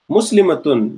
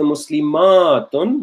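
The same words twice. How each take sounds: First: The vowel before the last syllable is short. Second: The vowel before the last syllable is long. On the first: It refers to one person. "the singular form, does not have a stretch" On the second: It refers to more than one person. "would have a stretch"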